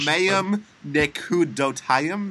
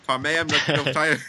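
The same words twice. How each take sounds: First: It is said slowly and tentatively. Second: It is said quickly.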